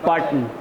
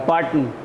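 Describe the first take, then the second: The two takes are said the same way.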